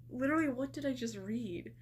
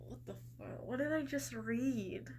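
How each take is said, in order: First: Said in the usual way. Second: Whispered disbelief; stunned whisper. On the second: Real, not acted. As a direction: breathe it out in shocked disbelief. Stunned by the bizarre profile.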